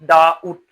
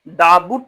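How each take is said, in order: First: The word is said with no b sound. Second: The word is said with a b sound. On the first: The speaker calls it right. "पढ़ते क्या है? डाउट" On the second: The speaker calls it wrong. "डाबुट नहीं पढ़ते हैं, बो नहीं आता है"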